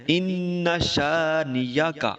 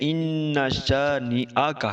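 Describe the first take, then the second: First: A y sound follows the n sound. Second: A glottal stop follows the n sound. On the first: The speaker calls it wrong. "नून के बाद हमजा की बजाय या पढ़ देते हैं, जो कि गलत है" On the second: The speaker calls it right. "यानी नून के बाद हमजा पढ़ना है"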